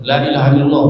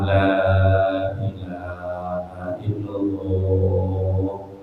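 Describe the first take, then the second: First: The phrase is said quickly. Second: The phrase is said slowly.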